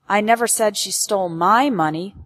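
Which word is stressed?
my. The word my carries the main stress. She stole someone else's money, not mine. "Implies that she stole someone else's money, but not mine"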